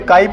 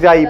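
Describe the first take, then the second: First: The word begins with a K sound. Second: The word begins with a J sound. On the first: The speaker calls it right. "लेकिन काई ही पढ़ा जाता है" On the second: The speaker calls it wrong. "जाई पढ़ने का कोई मतलब नहीं है"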